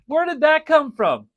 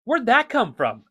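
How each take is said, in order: First: Amazed repeat. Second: High, louder astonished asking; amazed question. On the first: Real, not acted. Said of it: "repeats in wonder". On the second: Retold or imitated. Wondering aloud how the mom knew his words. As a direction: ask it in happy disbelief. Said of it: "it was just like".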